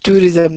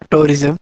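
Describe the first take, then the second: First: The first syllable includes a 'u' sound. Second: The first syllable has no 'u' sound. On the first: The speaker calls it right. "It's tourism, ... There is a U as well" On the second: The speaker calls it wrong. "not tourism"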